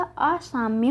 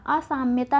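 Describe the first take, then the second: First: असाम्य slowly, ending on "mya"; slow असाम्य as a-sām-ya; correct form shown. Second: असाम्यता with extra -tā; असाम्यता, ending on long tā; wrong form shown. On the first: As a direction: say असाम्य without -tā. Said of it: "क्या होगा?". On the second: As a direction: say असाम्यता as a-sām-ya-tā. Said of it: "ना होके क्या होगा". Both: Shown as a demonstration.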